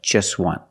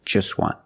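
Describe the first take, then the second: No difference in how they are said.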